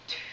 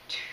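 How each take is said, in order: The two takes are said the same way.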